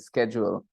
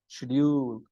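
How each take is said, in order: First: It is said with an American pronunciation. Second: It is said with a British pronunciation. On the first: "If you listen to it from an American's mouth, it will sound this way" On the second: "because they will say schedule"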